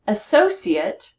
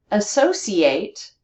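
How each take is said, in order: First: "Associate" slowly, stressed on SO, ending in a weak "-it"; noun stress in middle. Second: "Associate" slowly, stressed on SO and a full "-ATE"; verb with two stresses. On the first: Teacher showing students the noun, "Associate" stressed only in the middle. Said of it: "Notice the stress in the middle of the word". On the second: Teacher showing students the verb, "Associate" stressed in middle and end. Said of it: "has both stress on the middle". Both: Shown as a demonstration.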